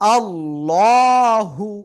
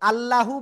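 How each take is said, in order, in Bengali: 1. L ধ্বনি ভারী ও মোটা। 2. L ধ্বনি হালকা ও পাতলা। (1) "মোটা করে পড়বো আল্লাহু" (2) "আল্লাহু বললে আর হবে না"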